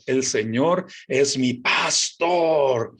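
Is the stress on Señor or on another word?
another word. The stress falls on a word other than Señor.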